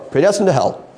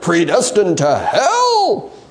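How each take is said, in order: First: The voice falls at the end like a statement. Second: The voice rises at the end like a question. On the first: The phrase asserts the idea as fact. The speaker calls it wrong. "You can't just go" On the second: The phrase questions the idea. The speaker calls it right. "It's a big question mark"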